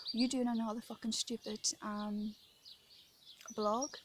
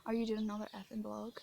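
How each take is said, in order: First: Mildly mocking the man's jeer, swear word left in; quoting a heckler's sneer lightly, swearing included; retold taunt, uncensored. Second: The same jeer retold with "effing" for the curse; quoting the heckler's sneer again, cleaned up; retold taunt, censored. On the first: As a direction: repeat his taunt plainly, with the curse. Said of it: "that was what he said". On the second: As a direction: tone his taunt down politely. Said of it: "Sorry for cursing".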